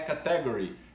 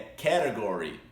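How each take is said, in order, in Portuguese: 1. A segunda sílaba é tônica, como em caté. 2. A segunda sílaba é átona, como em cater. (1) "não é category" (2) "é category"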